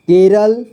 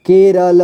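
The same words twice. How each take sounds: First: Said in the usual way. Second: केरल split as के, र, ल; syllable by syllable. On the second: Shown as a demonstration. Teacher showing learners केरल, sounded out in parts. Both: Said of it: "इसे पढ़ेंगे".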